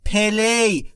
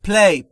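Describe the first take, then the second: First: A short vowel is inserted between p and l. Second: The p and l are joined with no vowel. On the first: The speaker calls it wrong. "نود و پنج درصد فارسی زبانان اینو اشتباه تلفظ میکنن، میگن پلی" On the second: The speaker calls it right. "بین P و L صدایی وجود نداره"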